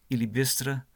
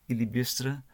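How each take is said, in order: Both takes have the same delivery.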